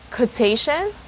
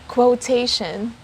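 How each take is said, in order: First: There is no W sound after the K. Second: There is a W sound after the K. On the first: "the first one doesn't have the sound of it" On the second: "The second one has the sound of it"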